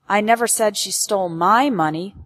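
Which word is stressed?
my. The word my carries the main stress. She stole someone else's money, not mine. "Implies that she stole someone else's money, but not mine"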